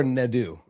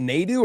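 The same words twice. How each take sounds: First: Nadu said as neh-DOO, short first vowel; short, quick first syllable in "Nadu"; NUH pronunciation. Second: Nadu said as NAY-doo; long ay in the first syllable of "Nadu"; NAY pronunciation. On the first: Co-host offering the alternative, Nadu said neh-DOO. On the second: Co-host asking which is right, Nadu said NAY-doo. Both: Shown as a demonstration. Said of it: "It's not Nay, it's Na".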